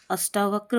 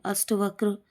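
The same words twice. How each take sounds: First: Said in the usual way. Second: अष्टवक्र with short 'a' after sht; mispronounced अष्टवक्र. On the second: Shown as a demonstration. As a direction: say अष्टवक्र as ash-ta-vakr. (अष्टवक्र में 'ट' छोटा) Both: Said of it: "अष्टावक्र होता है".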